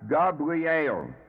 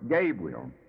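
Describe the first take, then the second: First: It is said with a Hebrew-style pronunciation. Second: It is said the usual English way. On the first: "but pronounced here as Gabriel" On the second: "the commonly used word Gabriel"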